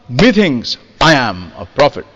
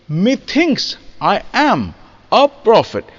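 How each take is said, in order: First: The first syllable of methinks is stressed. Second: The first syllable of methinks is unstressed. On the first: The speaker calls it wrong. "It's not" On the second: The speaker calls it right. "the first syllable is unaccented"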